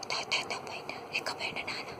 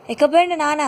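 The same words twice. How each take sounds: First: Playful secret whisper. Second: Said in the usual way. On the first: Pretend. Parent whispering playfully to toddler Ammulu. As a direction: hush it like a secret game for the baby.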